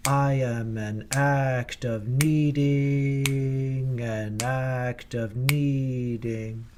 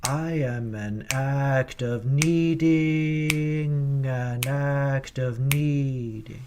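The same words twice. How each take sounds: First: Needing in two syllables, nee-ding; needing said whole as two syllables, slowly; wrong way. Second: Needing split into need, I, ng; needing said as three parts, need-I-ng, slowly; right way. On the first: Choir director showing how not to sing needing. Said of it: "is not". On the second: Choir director showing needing split into three syllables. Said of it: "perform it like this". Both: Shown as a demonstration.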